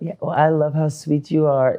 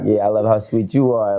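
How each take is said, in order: First: It sounds romantic and googly-eyed. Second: It sounds playful and teasingly flirtatious.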